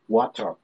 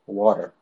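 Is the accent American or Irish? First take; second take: Irish; American. First: It is said in an Irish accent. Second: It is said in an American accent.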